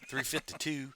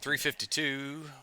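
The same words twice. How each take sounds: First: It is said with a plain neutral accent. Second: It is said with a rural hillbilly-like accent. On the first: The speaker calls it right. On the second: The speaker calls it wrong.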